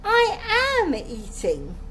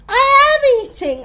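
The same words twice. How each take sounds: First: High, slow indignant insistence; drawn-out, raised-pitch denial; indignant protest. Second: Very loud, high-pitched insistence; heated, full-volume protest; outraged protest. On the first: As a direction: stretch out AM in protest. Accused girl insists she eats. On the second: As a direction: shout the denial indignantly. Accused girl protests, more heated. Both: A narrator's reading.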